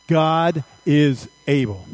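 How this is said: It is said with strong, believing conviction.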